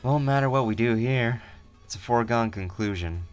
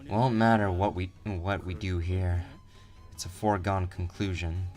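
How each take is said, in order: First: It is said with a smile in the voice. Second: It is said without a smile in the voice.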